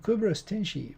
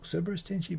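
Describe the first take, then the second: First: The name is said with its Latin pronunciation. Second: The name is said without its Latin pronunciation.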